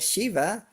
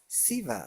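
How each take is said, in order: First: The name begins with a sh sound. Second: The name begins with an s sound.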